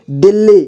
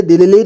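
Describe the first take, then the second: First: Said in the usual way. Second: दिल्ली broken up as दि-लि-ली; wrong split reading. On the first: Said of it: "इसे एक ही बार में पढ़ेंगे". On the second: Shown as a demonstration. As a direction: misread दिल्ली with an extra syllable. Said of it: "नहीं पढ़ना है".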